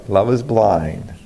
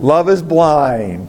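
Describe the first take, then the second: First: Repeated proverb, lower. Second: Slow, stressed proverb. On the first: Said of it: "That's right". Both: Shown as a demonstration.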